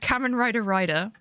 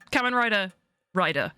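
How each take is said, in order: First: The name is said without an internal pause. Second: The name is said with a pause inside.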